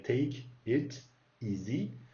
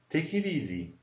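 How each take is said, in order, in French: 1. Chaque mot est dit séparément, pas enchaîné. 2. Les mots se collent comme un seul mot. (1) "ça se dirait take it easy" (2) "mais on dit take it easy"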